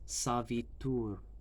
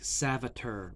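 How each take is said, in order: First: The word is said with an Indian accent. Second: The word is said with an American accent. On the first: The speaker calls it right. "It's savitur" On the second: The speaker calls it wrong. "it's a very American accent"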